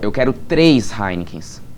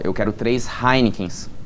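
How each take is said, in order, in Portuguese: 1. A palavra três recebe a ênfase. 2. A palavra Heinekens recebe a ênfase. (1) "Aqui eu estou dando ênfase na, na quantidade de cerveja" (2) "Mais uma vez eu estou enfatizando o quê? A cerveja que eu quero"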